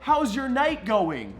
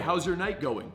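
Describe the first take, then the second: First: It is loud, pushed higher and strained. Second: It is loud but stays low and steady. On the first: The speaker calls it wrong. "I don't say" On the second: The speaker calls it right. "it's still coming from the diaphragm"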